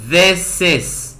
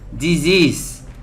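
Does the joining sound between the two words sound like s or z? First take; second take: s; z. First: The words are joined with an s sound. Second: The words are joined with a z sound. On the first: The speaker calls it right. "Tem som de S na, na junção desses sons" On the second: The speaker calls it wrong. "Cuidado para não pronunciar Z. Eu vejo muitos brasileiros, muitas brasileiras falando assim"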